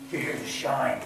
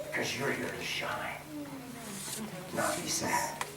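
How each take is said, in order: First: Said in the usual way. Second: Unvoiced whispered point; hushed preacher's whisper. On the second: Real, not acted.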